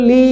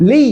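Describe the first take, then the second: First: "লি" without the springy lean on its y; wrong "লি", no swing. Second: "লি" leaning into a doubled y; swung "লি". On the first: Teacher shows the mistake, "লি" without the swing. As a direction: say "লি" as a plain long vowel, unswung. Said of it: "এরকম না". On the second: Teacher models the correct "লি", swinging into the doubled y. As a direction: give "লি" a slight swing on its ending. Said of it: "একটু ঝুল দিতে হয়". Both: Shown as a demonstration.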